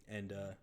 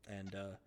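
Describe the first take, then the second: No difference in how they are said.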